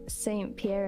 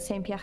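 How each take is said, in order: First: The name is said with an American accent. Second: The name is said with a French accent.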